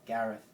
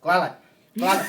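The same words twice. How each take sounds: First: "Gareth" said slowly and clearly; slow careful "Gareth". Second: "Glalet" for "Gareth", loud with l for r; mangled "Gareth". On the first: Shown as a demonstration. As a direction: spell out "Gareth" for a learner. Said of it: "say it again very slowly". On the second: Retold or imitated. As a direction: shout "Glalet" proudly. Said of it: "they would say".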